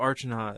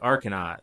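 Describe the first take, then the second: First: The first syllable sounds like 'arch'. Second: The first syllable sounds like 'ark'. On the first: The speaker calls it wrong. "somebody's like, oh, Archanaut" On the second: The speaker calls it right. "oh no, it's actually Arcanaut"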